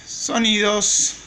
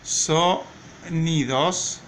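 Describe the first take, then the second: First: Said in the usual way. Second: "sonidos" very slow, broken after "so"; syllable by syllable. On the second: Shown as a demonstration. Teacher dictating for writing, "sonidos" slowly split by syllable. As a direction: stretch "sonidos" with a pause between syllables. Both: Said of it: "Miren cómo se escriben".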